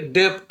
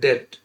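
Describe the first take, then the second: First: A p sound is heard before the final t. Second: No sound is heard before the final t. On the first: The speaker calls it wrong. "पढ़ना तो चाहिए डेप्ट" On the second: The speaker calls it right. "मगर पढ़ते हैं डेट"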